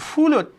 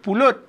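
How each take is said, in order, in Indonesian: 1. Kata itu diawali dengan bunyi f. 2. Kata itu diawali dengan bunyi p. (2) "Kalau kita sebut pulut"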